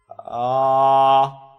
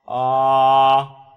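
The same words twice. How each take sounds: No difference in how they are said.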